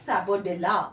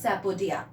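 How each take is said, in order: First: Sapodilla with the L sounded, slowly; wrong pronunciation. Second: Sapodia with a silent L, "sapo-dia"; correct pronunciation. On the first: Teacher warns learners what not to say, wrong pronunciation. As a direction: say sapodilla as spelt, "sapo-dilla". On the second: Teacher shows how to pronounce chikoo in English, correct pronunciation. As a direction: drop the L sound in sapodia. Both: Shown as a demonstration. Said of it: "not sapodilla".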